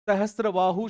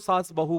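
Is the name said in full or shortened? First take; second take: full; shortened. First: The name is said in full, all syllables. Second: The name is shortened, middle sounds dropped. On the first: The speaker calls it right. "हम सहस्त्रबाहु शब्द का प्रयोग करते हैं" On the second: The speaker calls it wrong. "हम उसको सास बहु बोलने लग गए ... उच्चारण दोष के कारण"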